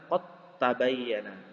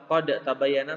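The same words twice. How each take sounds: First: The d merges fully into the following t. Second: The d is released with a bounce before t. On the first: The speaker calls it right. "Yang benar" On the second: The speaker calls it wrong.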